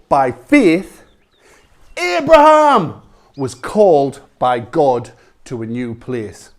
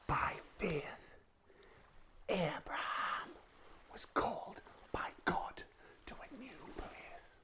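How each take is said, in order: First: It is said at a louder, normal volume. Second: It is said very quietly.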